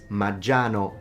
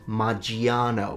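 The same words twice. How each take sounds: First: The i is silent, with no extra syllable. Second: The i is sounded as an extra syllable. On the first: The speaker calls it right. "It's Maggiano" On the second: The speaker calls it wrong. "not Maggiano. We don't pronounce the I"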